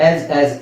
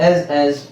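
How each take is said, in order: Both takes have the same delivery.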